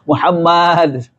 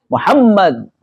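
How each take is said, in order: First: A vowel in the name is drawn out long. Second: The vowels in the name are kept short. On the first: The speaker calls it wrong. "panjang ya Muhammad salah" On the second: The speaker calls it right. "nah gitu ya"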